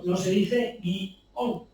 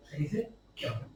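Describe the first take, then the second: First: Guión drawn out slowly as gui-ón, two syllables. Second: Guión said as one quick syllable, gyon; one-syllable guion. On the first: Explaining to podcast hosts the Spanish two-syllable guión, slow. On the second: Telling hosts how Mexico says guión, one syllable. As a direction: squeeze guión into a single syllable. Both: Shown as a demonstration.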